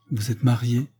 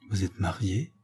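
First: Put-on lightly like a child at fault, apologetic; child caught out. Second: Hushed, soft question; low voice. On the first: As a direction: ask it with a hint of a guilty child's excuse. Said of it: "du ton d'un enfant pris en faute". (un peu comme un enfant pris en faute) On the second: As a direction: ask it under your breath, much softer. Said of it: "dit-elle à voix basse". (à voix basse) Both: A narrator's reading.

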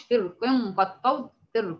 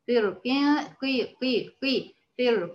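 First: فرق run quickly into قد طود without a clear i; muddy the vowel on the qaf of فرق; wrong reading of qaf. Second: فرق corrected with a clean qi on the qaf; careful i vowel after the qaf in فرق; clear kasra on qaf. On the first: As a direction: demonstrate the mistaken فرق, qaf's kasra blurred. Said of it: "ما أقولش". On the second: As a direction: isolate قي, then put it back into فرق. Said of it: "ننتبه لكسر إيه؟". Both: Shown as a demonstration.

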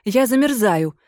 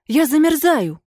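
First: Said in the usual way. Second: Desperate cry. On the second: Acted. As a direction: wail that you are freezing.

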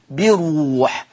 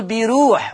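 First: بروح with a full, heavy ra, slowly drawn out. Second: بيروح with a light, thinned ra. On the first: Teacher shows students the correct reading like Hafs, heavy ra. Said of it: "أن الراء ها هنا مفخمة كحفص تمامًا". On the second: Teacher warns students against this mistaken reading, thinned ra. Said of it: "ورقق، لأ، هنا الكسر يا جماعة الحرف هنا زائد". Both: Shown as a demonstration.

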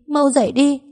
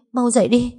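First: Higher still, rising into a wail; the plea grows into a wail. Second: Higher, begging him to wake; crying over her boyfriend's body; tearful plea. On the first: (gào khóc, giọng vút cao) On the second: (khóc van xin) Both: Acted. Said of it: "Tôi lớn tiếng gào khóc".

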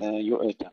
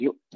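First: Hamza of يؤت released with an extra tiny vowel; wrong bounced hamza. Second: Hamza of يؤت stopped clean, no bounce; unreleased catch in يؤت; still hamza. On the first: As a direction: say يؤت faultily, echoing the hamza like "yu'e-ta". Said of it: "وليس يؤت". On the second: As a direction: say يؤت with a held glottal catch before the ت. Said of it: "لا نقلقل الهمزة". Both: Shown as a demonstration.

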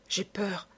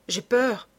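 First: Soft, frightened murmur of j'ai peur; first j'ai peur almost under the breath; hushed fear. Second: J'ai peur repeated higher and fuller; second j'ai peur pushed up in panic; rising fear. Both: A narrator's reading. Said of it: "répétait Suzanne".

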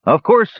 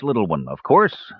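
First: A loud, higher burst of mock welcome; lightly voiced silky menace; a mage feigning welcome to the bird; silky threat. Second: A mage luring the little bird inside; silky threat. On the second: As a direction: purr it with a mild hidden menace. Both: A narrator's reading. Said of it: "There was silky threat in the mage's voice".

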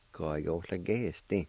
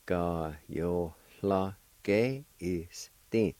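First: Said in the usual way. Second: "Ka yo la ge is thin" spoken slowly, each syllable drawn out; slow demo. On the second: Shown as a demonstration. Teacher slowing down so learners catch "Ka yo la ge". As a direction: sound out "Ka yo la ge" syllable by syllable. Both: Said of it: "It's pronounced like this".

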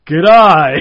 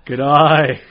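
First: A loud Australian greeting; Australian accent. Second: A quick Australian greeting, a bit louder; Australian accent. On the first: Comic recovering on stage, loud Australian accent. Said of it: "supposed to be Australian for this". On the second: Comic showing off his Australian bit, Australian accent. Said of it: "I do the Australian thing". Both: Retold or imitated.

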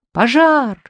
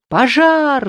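First: High, loud panic cry; frantic shout. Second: High loud yell of many throats; crowd roar. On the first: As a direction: scream it out in terror. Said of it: "закричал я не своим голосом". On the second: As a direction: bellow it out. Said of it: "заорали десятки глоток". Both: Acted.

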